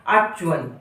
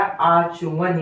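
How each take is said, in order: First: The ch is said without a following vowel. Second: The ch is said with a full following vowel. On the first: The speaker calls it wrong. "आधा च कर लेते हैं" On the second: The speaker calls it right. "च यहाँ पर पूर्ण होता है"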